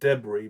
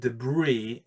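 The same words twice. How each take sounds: First: It is said with the British pronunciation. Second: It is said with the American pronunciation. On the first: "I probably should say debris because I try to keep my English a little bit more British" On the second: "debris is the American way of saying it"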